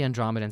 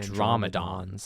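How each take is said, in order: First: The ending sounds like plain '-dans'. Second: The ending sounds like a dinosaur's '-dons'. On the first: It is the speaker's habitual way of saying it. "I call them the Andromedans out of force of habit" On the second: It is how the name is said in the movie. "the pronunciation of Andromedans in the movie is Andromedons, which makes them sound like a dinosaur"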